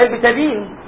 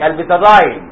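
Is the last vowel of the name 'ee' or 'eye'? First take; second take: ee; eye. First: The last vowel sounds like 'ee'. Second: The last vowel sounds like 'eye'. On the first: This is the ordinary local way to say it. "زي البيتادين" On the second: Some people prefer this foreign-sounding form. "بعض الناس بتحب يقول لك"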